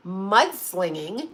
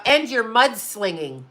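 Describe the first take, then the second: First: "Mudslinging?" drawn out slowly with a rising end; incredulous echo. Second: Measured, slow accusing statement; quoted accusation. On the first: Client answers lawyer's accusation, "Mudslinging?" slow, rising, incredulous. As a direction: stretch "Mudslinging?" into a disbelieving question. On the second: Lawyer accuses client in a letter, slow accusation. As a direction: state the charge slowly, falling at the end. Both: Retold or imitated.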